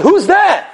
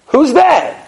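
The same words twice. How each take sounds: First: High called-out Who's there through a metal door; mock shout. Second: High called-out Who's there again, disbelieving; repeated shout. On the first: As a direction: call out through the door, startled. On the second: Retold or imitated. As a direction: call it out once more, unsure. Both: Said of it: "They shout".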